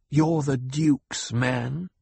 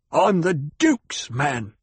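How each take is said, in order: First: Slow sneer, drawn out; mocking his own claim back at him. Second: Slow, clipped and louder; terse, bitten-off declaration of loyalty; biting off the words. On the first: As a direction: drag the words out in contempt. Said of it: "she sneered". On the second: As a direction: bite off each word, slowly. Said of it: "he said, biting off the words". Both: A narrator's reading.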